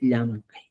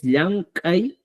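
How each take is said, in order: First: "Llancay" short, low and softer; second correct form. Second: "Llancay" drawn out, ending on a rise; first correct form. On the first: Teacher finishing correct forms, "Llancay" low and short. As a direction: drop "Llancay" down to close the list. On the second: Teacher listing correct forms, "Llancay" long and rising. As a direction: stretch "Llancay" and leave it hanging upward. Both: Shown as a demonstration. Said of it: "formas correctas".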